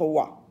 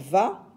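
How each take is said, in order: First: The syllable begins with a w sound. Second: The syllable begins with a v sound. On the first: "peut se lire wa" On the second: "peut se lire va"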